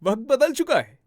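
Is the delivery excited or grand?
excited. It is said in a happy, excited tone. "थोड़ा happy excited वो tone लेकर आते हैं"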